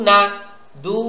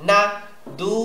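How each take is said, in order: No difference in how they are said.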